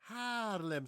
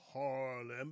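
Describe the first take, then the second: First: The first vowel is a long, wide-open 'ah'. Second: The first vowel is a short English-style vowel. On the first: The speaker calls it right. "In Dutch, we call it Haarlem. ... So open up wide. Ah" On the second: The speaker calls it wrong. "Not Harlem"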